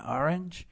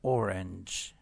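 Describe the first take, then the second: First: The first vowel is an open 'ah' sound. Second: The first vowel is a rounded 'oh' sound. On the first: "دو تا تلفظ وجود داره. یه جاهایی میگن آرنج" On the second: "یه جاهایی میگن اورنج ... این تلفظ هم هست"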